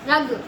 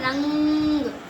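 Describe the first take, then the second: First: It is said without the nasal sound. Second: It is said with a nasal ng sound. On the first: The speaker calls it wrong. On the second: The speaker calls it right.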